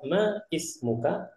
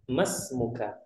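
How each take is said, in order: First: The two words are said separately, vowel kept. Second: The words run together, the vowel dropped. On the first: "kalau untuk mempermudah ma ismuka maka tidak masalah" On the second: "seakan-akan hamzahnya tadi tidak ada"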